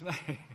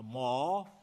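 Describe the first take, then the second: First: The vowel is a gliding 'ay' sound. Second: The vowel is an open 'ah' sound. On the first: The speaker calls it right. "It's May" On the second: The speaker calls it wrong. "you don't pronounce the month of May, a Ma"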